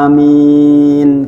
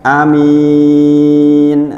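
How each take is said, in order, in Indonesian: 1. Kedua vokal panjang, m tetap tunggal. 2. Hanya vokal kedua yang panjang. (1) "yang betul adalah amin ... Amin dua harokat" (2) "A-nya pendek, mi-nya panjang"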